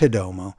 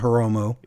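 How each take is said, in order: First: The middle consonant sounds like a D. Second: The middle consonant is a rolled R. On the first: This is how the imitated person actually says it. "but no, it's Hidomu" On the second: This is how the imitated person believes he says it. "rolling the R"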